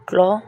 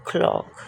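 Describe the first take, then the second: First: clock called out with a rise; clear model. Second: clock whispered back without voice; whispered echo. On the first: Teacher models clock aloud for students. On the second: Teacher whispers clock after modelling it aloud. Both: Shown as a demonstration. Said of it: "teacher models word twice".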